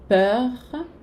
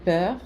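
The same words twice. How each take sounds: First: "Peur" with a light R at the end; "Peur", barely touch the final R; "Peur" ending in a soft, unmarked R. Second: "peur" with the R almost dropped; "peur" closing lightly, the R barely heard; "peur" with a faint final R; soft final R. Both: Shown as a demonstration. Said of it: "com um R não tão marcado no final".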